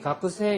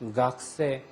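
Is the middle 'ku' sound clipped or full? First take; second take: full; clipped. First: The middle 'ku' vowel is fully pronounced. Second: The middle 'ku' vowel is nearly dropped. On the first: This is how some southern speakers say it. "규슈나 저쪽 남쪽으로 가면 아직도 가크세" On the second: This is the usual Tokyo pronunciation. "도쿄 사투리는 가크 할 때 그 발음을 생략을 합니다"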